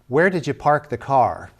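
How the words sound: It is said in a California accent, with R sounds.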